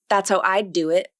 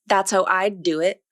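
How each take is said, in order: Both takes have the same delivery.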